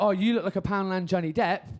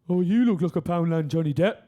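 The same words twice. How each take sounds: First: It is said in a non-Birmingham accent. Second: It is said in a Birmingham accent. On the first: The remark comes across as hurtful. "That that's hurtful" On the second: The remark comes across as kind of funny. "But in the Birmingham accent"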